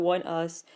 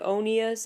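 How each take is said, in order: First: It sounds like two separate words, one and us. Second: It sounds like one blended word, oh-nee-us. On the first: The speaker calls it right. "I know it's not how you should pronounce it" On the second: The speaker calls it wrong. "doesn't it sound a lot better if you pronounce it Onius?"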